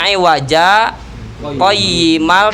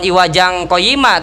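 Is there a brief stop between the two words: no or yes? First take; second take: yes; no. First: A brief stop without breath separates the words. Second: The words run together with no stop. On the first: The speaker calls it right. "tapi tanpa bernapas. Itu saktah namanya" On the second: The speaker calls it wrong.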